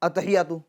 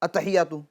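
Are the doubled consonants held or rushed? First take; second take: rushed; rushed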